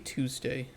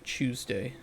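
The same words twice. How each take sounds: First: It is said in a non-British accent. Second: It is said in a British accent.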